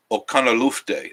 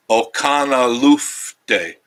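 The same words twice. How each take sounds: First: Said in the usual way. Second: Okanalufte drawn out very slowly, syllable by syllable; slow careful try. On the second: Shown as a demonstration. Struggling with the place name, slowly sounding out Okanalufte. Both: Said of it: "I still can't".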